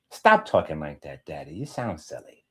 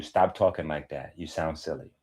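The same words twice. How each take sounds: First: Lightly voiced little kid complaining; a hint of a child telling Daddy off; child's voice. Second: Said in the usual way. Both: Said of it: "your son or your daughter will start to tell you".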